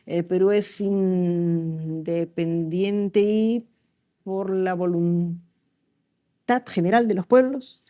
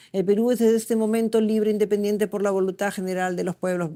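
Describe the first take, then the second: First: Slow, halting, syllables split in the wrong places; dyslexic reading. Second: Said in the usual way. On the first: Shown as a demonstration. Teacher showing students how a dyslexic child reads, slow and broken. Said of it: "se dan cuenta que separo las sílabas mal". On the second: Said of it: "agarro mi papel y leo".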